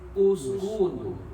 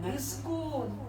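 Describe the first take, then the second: First: The word begins with the vowel u. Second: The word begins with the vowel i. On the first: The speaker calls it right. "Ketika huruf ketiga berharokat dhammah" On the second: The speaker calls it wrong. "jangan iskun"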